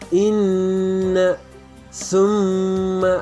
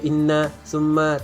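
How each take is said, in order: First: The nasal sound is held with a hum. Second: The nasal sound is short, without a hum. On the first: The speaker calls it right. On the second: The speaker calls it wrong. "jangan dibaca"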